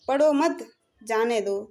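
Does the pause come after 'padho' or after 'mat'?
after mat. There is a pause right after 'mat'. Do not read, go. "Second में है पढ़ो मत जाओ"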